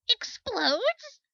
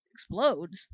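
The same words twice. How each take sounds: First: Much higher, sharp rising "Explodes?"; shocked question. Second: Flat disbelief. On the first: Startled soldier hearing the sun will explode, shocked rise. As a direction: jump up in alarm on "Explodes?". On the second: Second soldier echoing the news, stunned and falling. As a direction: let "Explodes?" drop flat in dull shock. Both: Acted.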